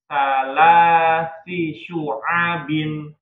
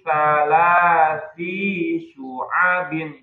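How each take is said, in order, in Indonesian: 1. Vokal pada si dibuat pendek. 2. Vokal pada si dibuat panjang. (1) "jadi si-nya pendek" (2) "I-nya jangan dibuat panjang, jangan di salasi syu'abin"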